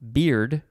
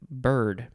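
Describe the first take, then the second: First: The vowel is a long 'ee' sound. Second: The vowel is an 'ir' sound. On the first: "I would have put like a long E sound instead of the I" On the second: "but they wrote it bird"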